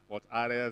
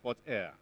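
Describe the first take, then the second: First: The second word sounds like 'are'. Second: The second word sounds like 'air'. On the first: The speaker calls it wrong. "Some pronounce it Fort Are" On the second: The speaker calls it right. "it's not Are, it's Air"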